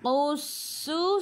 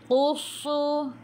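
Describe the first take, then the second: First: The s sound is light and hissing. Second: The s sound is heavy and thick. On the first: The speaker calls it right. "Qussu sin s, gitu" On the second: The speaker calls it wrong. "Jangan qussu"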